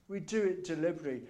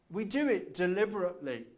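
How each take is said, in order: First: A quick, brisk restatement; fast repeat. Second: Said in the usual way. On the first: Shown as a demonstration. Preacher repeating his point to the congregation, fast. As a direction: rattle the line off quickly.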